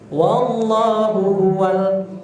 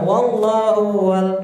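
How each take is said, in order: First: The hu syllable is pronounced clearly. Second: The hu syllable is slurred and dragged. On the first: The speaker calls it right. "hu-nya dibaca jelas ya, harus jelas" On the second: The speaker calls it wrong. "bukan... Itu namanya ditashil, diseret ya"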